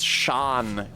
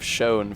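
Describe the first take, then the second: First: The vowel rhymes with 'on'. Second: The vowel rhymes with 'own'.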